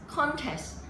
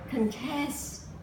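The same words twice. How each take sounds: First: The stress is on the first syllable. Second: The stress is on the second syllable. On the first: It is used as a noun. "annual contest" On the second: It is used as a verb. "if you use it in the verb form, it will be like contest"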